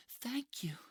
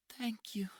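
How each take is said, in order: First: High young woman's voice, fully voiced thank you; grateful high-voiced thanks. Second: Put-on breathy whispered thank you in a high young woman's voice; weak whispered gratitude. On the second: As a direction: barely voice the thanks. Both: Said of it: "she says to Mike".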